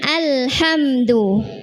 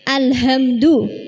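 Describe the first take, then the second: First: The h is a tight friction from the throat. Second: The h is a light, open breath. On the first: The speaker calls it right. "dari tengah tenggorokan juga keluar huruf H" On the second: The speaker calls it wrong. "Jangan alhamdu"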